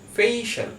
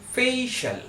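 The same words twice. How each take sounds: First: The middle sounds like a single 'sh'. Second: The middle sounds like a single 'sh'.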